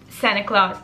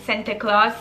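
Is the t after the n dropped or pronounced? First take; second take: dropped; pronounced. First: The t after the n is dropped. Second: The t after the n is clearly pronounced.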